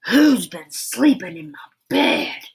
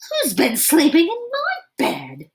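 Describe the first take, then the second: First: Big, loud Daddy Rhino voice; great big roar. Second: Medium-sized shout. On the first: Daddy Rhino roaring at his slept-in bed, in a great big voice. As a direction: boom it out like a big papa bear. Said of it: "roared Daddy Rhino in his great big voice". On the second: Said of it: "shouted Mommy Rhino in her medium-sized voice". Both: Acted.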